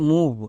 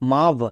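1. স্বরধ্বনিটির উচ্চারণ লম্বা 'oo'-এর মতো। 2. স্বরধ্বনিটির উচ্চারণ ছোট 'uh'-এর মতো। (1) "এর উচ্চারণ হবে মুভ" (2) "কিন্তু না"

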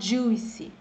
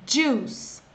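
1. A palavra termina com uma vogal 'ee' extra. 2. A palavra termina sem vogal extra. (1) "Você não pode falar juicy" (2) "é juice"

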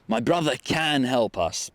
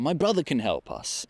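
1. Słowo can jest mocno akcentowane. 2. Słowo can nie jest akcentowane. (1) "właśnie warto powiedzieć can" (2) "normalnie by było"

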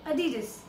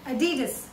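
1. यह अमेरिकन अंग्रेज़ी उच्चारण में है। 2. यह अमेरिकन अंग्रेज़ी उच्चारण में है।

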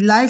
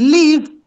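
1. La vocal suena como la palabra 'eye'. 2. La vocal suena como la vocal en 'it'. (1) "live significa en vivo" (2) "live significa vivir"

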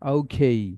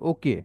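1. এটি একটি গড়িয়ে যাওয়া 'ei' ধ্বনি দিয়ে শেষ হয়। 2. এটি একটি ছোট, সাদামাটা 'e' ধ্বনি দিয়ে শেষ হয়। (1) "তারা বলে ওকেই, নট ওকে" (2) "আমরা বলি"

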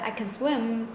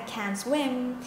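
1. Từ 'can' được rút gọn thành dạng yếu. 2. Từ 'can' được phát âm ở dạng đầy đủ. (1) "mình dùng dạng yếu của cái từ can này" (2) "mình nói mạnh mẽ hơn ... dùng dạng mạnh của cái từ này"

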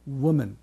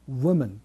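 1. wの半母音で始まります。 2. wの半母音で始まります。

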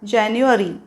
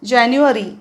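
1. या शब्दाचा इंग्लिश उच्चार आहे. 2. या शब्दाचा इंग्लिश उच्चार आहे.

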